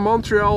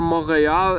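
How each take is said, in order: First: The name is said with English pronunciation. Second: The name is said with French pronunciation.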